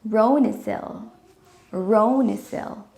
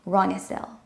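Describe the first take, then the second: First: "Ronisil" with a long o, ROH-nuh-sil; careful name pronunciation. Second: "Ronisil" with a short o like "Ron"; wrong name pronunciation. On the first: Shown as a demonstration. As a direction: say "Ronisil" slowly with an "oh" sound. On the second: Retold or imitated. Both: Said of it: "I like how you say my name".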